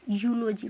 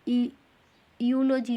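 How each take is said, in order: First: The word begins directly with a 'you' sound. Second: The word begins with a separate 'e' sound. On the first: The speaker calls it right. "यूलोजी पढ़ेंगे" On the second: The speaker calls it wrong. "ई यूलोजी नहीं पढ़ेंगे"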